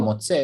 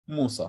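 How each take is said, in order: First: The middle consonant is a 'ts' sound. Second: The middle consonant is a plain 's' sound. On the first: This is the usual pronunciation of the word. "if you want to say motze" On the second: This is how the speaker's own tradition says it. "We say sa"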